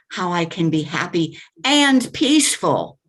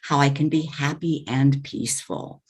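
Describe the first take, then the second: First: It is said loudly and forcefully. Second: It is said softly and conversationally. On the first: The delivery does not match the gentle content. The speaker calls it wrong. "But then you said" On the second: The delivery matches the gentle content. The speaker calls it right. "I would have preferred to hear"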